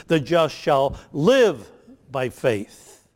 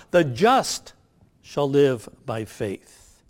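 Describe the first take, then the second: First: "live" pressed slow and loud, "by faith" falling after; slow quote that leans on "live"; stress on LIVE. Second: "The just" lifted and held, then "shall live by faith" slow; slow quote that puts its weight on "just"; stress on THE JUST. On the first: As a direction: bring the verse down hard on "live". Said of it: "And that's the emphasis in Galatians". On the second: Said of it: "So the emphasis is on the word "the just". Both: Shown as a demonstration.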